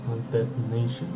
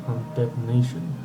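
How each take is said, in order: The two takes are said the same way.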